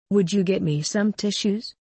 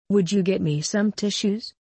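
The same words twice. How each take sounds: The two takes are said the same way.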